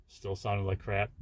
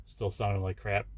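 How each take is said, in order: Both takes have the same delivery.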